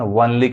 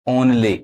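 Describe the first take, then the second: First: The word begins with a 'w' sound. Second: The word begins with an 'o' sound. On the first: The speaker calls it wrong. "इसको बहुत लोग गलत पढ़ते हैं, वनली कहते हैं।" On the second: The speaker calls it right. "वनली नहीं, क्या पढ़ाएगा? ओनली।"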